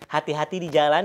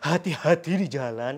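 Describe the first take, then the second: First: The h is a plain, light Indonesian h. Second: The h is a heavier, non-plain h sound. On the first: The speaker calls it right. "seperti biasa saja hati" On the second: The speaker calls it wrong. "tidak hati-hati di jalan"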